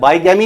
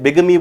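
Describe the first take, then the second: First: The first syllable sounds like 'bye'. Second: The first syllable sounds like 'big'. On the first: The speaker calls it wrong. "तो इसे बाइगैमी नहीं बोलते" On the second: The speaker calls it right. "बिगमी बोलते हैं"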